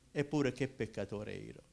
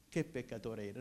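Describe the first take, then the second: First: Said in the usual way. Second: Softer, dropped repeat of the phrase; quiet echo. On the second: Shown as a demonstration. Preacher repeating his confession to the congregation, softer. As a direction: let it sink in, said softly to yourself.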